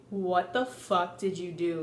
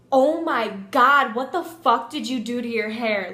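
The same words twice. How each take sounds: First: Low, restrained mom voice; disapproving mom. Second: Disgusted friend. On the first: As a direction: imitate a mom's laser-glare question, pitched down. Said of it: "you know that mom look". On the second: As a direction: mimic a horrified friend, hit the start hard. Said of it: "she was so disgusted". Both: Retold or imitated.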